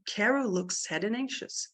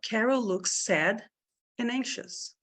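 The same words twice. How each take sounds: First: The sentence runs together without any pause. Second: There is a pause inside the sentence. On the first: "Ou eu posso querer falar tudo junto" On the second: "Eu posso querer fazer uma pausa aqui"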